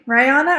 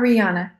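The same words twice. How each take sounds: First: The first syllable sounds like 'rye'. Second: The first syllable sounds like 'ree'. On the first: "Rye, like rye of the bread" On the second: "or re"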